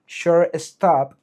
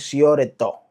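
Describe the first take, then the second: First: It is said with an English accent. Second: It is said with a local Spanish accent. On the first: "en inglés la pronunciación correcta sería shortstop" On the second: "nosotros aquí lo que decimos es shortstop"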